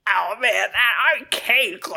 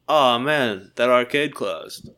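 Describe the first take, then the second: First: It is said in an impression of Stitch. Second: It is said in a plain, ordinary voice.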